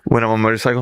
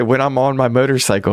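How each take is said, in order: First: "When I'm on a motorcycle" run together as one word; mumbled. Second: "When I'm on my motorcycle" higher, words still linked; mumbled phrase repeated. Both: Retold or imitated. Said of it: "So, yeah, I mumble".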